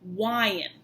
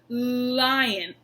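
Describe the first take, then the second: First: It begins with a W-like sound. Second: It begins with a clear L sound. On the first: The speaker calls it wrong. "produce the L as a W" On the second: The speaker calls it right. "When they see your tongue go out"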